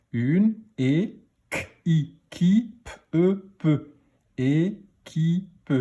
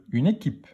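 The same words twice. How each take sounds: First: Équipe broken into é, ki, pe with long pauses; slowly decode équipe, sound by sound; teacher stretching each syllable of équipe. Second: Said in the usual way. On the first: Shown as a demonstration. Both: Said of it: "On y va pour la lecture des mots".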